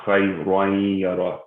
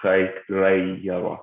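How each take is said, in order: First: "khayrayara" with a full, thick "ra", like "raw"; tafkhim, heavy Ra. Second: Slow "khayrayyara" with a thin "ray" in the middle; light Ra. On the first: Tajweed teacher showing the tanween reading, heavy Ra in "khayrayara". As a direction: say "khayrayara" making the middle Ra heavy. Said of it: "you still do pronounce the tafkhim". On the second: Tajweed teacher showing the reading to avoid, slow light "ray" in "khayrayyara". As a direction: draw out "khayrayyara" with the Ra unthickened. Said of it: "it's pronounced khayrayara instead of". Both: Shown as a demonstration.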